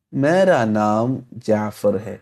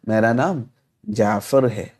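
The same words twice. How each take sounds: First: Very slow, careful dictation; slow model reading. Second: Said in the usual way. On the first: Shown as a demonstration. Teacher to students, very slow model sentence. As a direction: say it slowly so students follow. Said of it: "teacher models Urdu sentence". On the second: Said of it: "repeats in two chunks".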